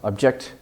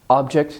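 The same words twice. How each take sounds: First: The word carries the verb's stress pattern. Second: The word carries the noun's stress pattern. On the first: It names an action. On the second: It names a thing.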